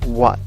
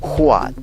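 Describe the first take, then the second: First: The word starts directly with a w sound. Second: The word starts with a breathy h sound. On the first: The speaker calls it right. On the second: The speaker calls it wrong.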